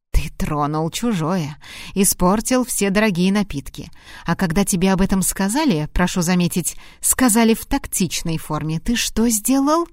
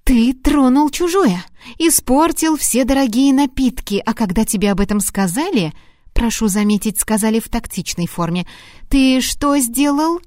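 First: Measured, controlled scolding; restrained reproach. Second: Angry reproach. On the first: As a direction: scold him without raising the voice. Выговор Харту, первый дубль. (сдержанный укор) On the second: Выговор Харту, второй дубль. (возмущённый выговор на повышенных тонах) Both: Acted.

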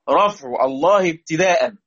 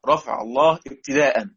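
First: Slow chanted recitation of رفع الله ابتداء; recited verse line. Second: Said in the usual way. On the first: Shown as a demonstration. Teacher reciting the poem line to students, slow and measured. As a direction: intone the verse slowly, drawing out الله. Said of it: "بيقول لي: طب". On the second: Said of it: "يعني إيه ابتداء؟".

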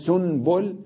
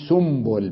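First: سنبل as "sun-bul", with a clear n; original nun. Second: سنبل as "sumbul", m before b; nun turned to mim. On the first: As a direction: keep the n before b in سنبل. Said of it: "أقول سنبل بدل سنبل". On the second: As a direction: swap the n in سنبل for an m. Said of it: "يجب أن نقلب النون ميما". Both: Shown as a demonstration.

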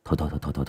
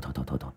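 First: Much softer, lower run of thôi; shaman soothing the frantic ghost; soft worried hushing. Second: Thôi almost breathed away, far softer; shaman calming her to near silence; fading hush. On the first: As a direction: hush her gently, thôi thôi. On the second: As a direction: let the thôi die out. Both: Acted. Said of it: "cũng lo lắng".

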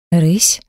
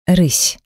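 First: "Рысь" with the pitch rising into a question; questioning echo. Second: "Рысь" as a falling one-word answer; falling statement. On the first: Woman checks the animal he named, rising question. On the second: Man tells her what her animal is, falling statement. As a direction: state "Рысь" with the pitch dropping, settled. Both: A narrator's reading.

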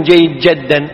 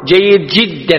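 First: "جدا" with an a, jaddan; the mistaken "جدا", jadd instead of jidd; wrong jaddan with fatha. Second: "جدا" with an i, jiddan; "جدا" pronounced jidd, not jadd; jiddan with kasra. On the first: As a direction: say "جيد جدا" as jayyid JAD-dan. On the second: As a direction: say "جيد جدا" as jayyid JID-dan. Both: Shown as a demonstration. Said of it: "ما يكتبون".

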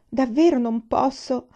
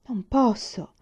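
First: Louder, slower, higher anxious refusal; insistent refusal. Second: Said in the usual way. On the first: A narrator's reading. Jailer refusing to free the student, anxious and insistent. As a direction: stress davvero, pleading that he cannot. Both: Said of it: "disse il carceriere".

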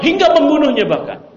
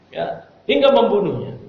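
First: Higher and louder, driving the point home; emphatic. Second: Said in the usual way. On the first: Real, not acted. Preacher stresses the husband's rage, higher and louder. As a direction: hit hingga membunuhnya hard and high.

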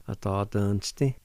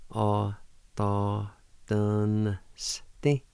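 First: "A, ta, dun, sti" blended into one word; joined-up pronunciation. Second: "A, ta, dun, sti" with gaps, rising on "sti"; syllable-by-syllable pronunciation. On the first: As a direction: run it together, lifting on "sti". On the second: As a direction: hold each syllable apart. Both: Shown as a demonstration. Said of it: "like this".

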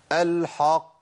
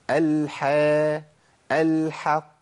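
First: «الحق» with dark, backed a starting from the ḥ; heavy ḥ error. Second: Drawn-out «الحا», then «الحق» with thin front a, heaviness only on qāf; light ḥ. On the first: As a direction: thicken «الحق» before reaching the qāf. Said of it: "القاف من عند الحاء". («الحق» بتفخيم الحاء) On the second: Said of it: "لكن عندنا في القرآن حا". («الحق» بحاء مرققة) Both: Shown as a demonstration.

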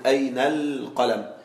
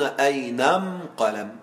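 First: Said in the usual way. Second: أين أم قلم with am in place of al, slow and clear; Himyar article am. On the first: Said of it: "نحن نقول". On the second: Shown as a demonstration. Teacher contrasts standard and Himyar article, slow demonstration. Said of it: "وهم يقولون".

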